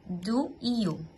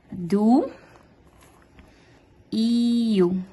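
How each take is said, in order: First: "Do, iu" said quickly as one phrase, quieter; "Do, iu" linked in one breath; pronunciation model run together. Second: "Do, iu" said slowly, each word apart; pronunciation model. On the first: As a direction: blend "Do, iu" smoothly. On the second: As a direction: model "Do" then "iu" separately. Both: Shown as a demonstration. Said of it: "Essa é a pronúncia".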